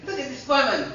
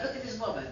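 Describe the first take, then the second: First: "Look at this woman" said louder and higher with a laugh; excited exclaim. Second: Said in the usual way. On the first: Retold or imitated. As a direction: show off the wonder of it, laughing. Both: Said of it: "he said, uh".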